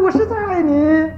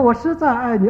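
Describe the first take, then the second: First: High, slow, drawn-out call. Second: Echo reply. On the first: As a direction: stretch it out like a child calling into the hills. Child calling out into the mountains. (模仿孩子拉长声音高喊) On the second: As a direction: hand the words back as a mild mountain echo. Echo repeats the child's call. (轻描淡写地模仿回声) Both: Retold or imitated.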